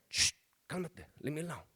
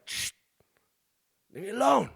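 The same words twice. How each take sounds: First: Soft, half-voiced shushing; hushed brush-off. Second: Higher, sharper retelling of a brush-off; irritated snap. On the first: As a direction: shoo someone off quietly. High dad shushing his little son. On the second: Retold or imitated. Dad retelling how he snapped at his thirsty son, irritated. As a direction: snap it after a shush, annoyed.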